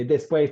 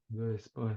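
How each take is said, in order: First: Louder call-out, teacher starting the chant; teacher's call. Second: Put-on lower, much softer, bored mumble of teens; mock the class's lifeless reply; bored students. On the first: Shown as a demonstration. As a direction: call it out to the class to get a response. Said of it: "I say". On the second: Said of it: "they go".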